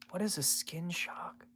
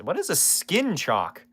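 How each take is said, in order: First: Slow, hushed whisper; drawn-out voiceless question under the breath; baffled whisper. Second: Said in the usual way. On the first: Real, not acted. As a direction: whisper it slowly, as if puzzling it out.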